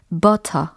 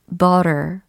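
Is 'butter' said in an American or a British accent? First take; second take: British; American. First: It is said plainly in a British accent. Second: It is said smoothly in an American accent. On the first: "영국식으로는 butter 이렇게 담백한 버터 같은 느낌" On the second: "이렇게 자연스럽게 버터 발음이 되겠죠"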